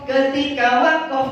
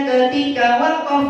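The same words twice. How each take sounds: Both takes have the same delivery.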